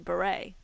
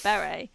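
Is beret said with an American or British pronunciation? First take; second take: American; British. First: It is said the American way. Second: It is said the British way.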